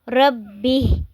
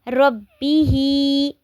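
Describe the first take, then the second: First: The word ends on a consonant. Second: The word ends with a long vowel. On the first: "जब हम इसको वक़्फ़ करेंगे तो क्या पढ़ेंगे?" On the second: "जैसे रब्बिही"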